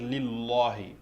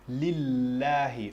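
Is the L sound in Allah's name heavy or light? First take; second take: heavy; light. First: The L is heavy and emphatic. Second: The L is light, not emphatic. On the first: The speaker calls it wrong. "on ne va pas dire lillahi" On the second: The speaker calls it right. "à cause de ce kasra, on va dire lillahi"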